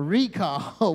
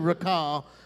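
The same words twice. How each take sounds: First: The stress is on the first syllable. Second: The stress is on the second syllable. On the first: It means a notice that comes in the mail. The speaker calls it right. "we call it a what? A recall" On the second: It means to bring something back to mind. The speaker calls it wrong. "We don't say recall"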